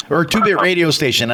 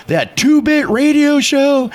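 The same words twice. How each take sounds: First: Said in the usual way. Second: High, slow, incredulous mock sneer; indignant question, pitched way up; retold scornful outrage. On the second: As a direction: imitate a man spitting scorn, stretched and high. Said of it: "just going ballistic".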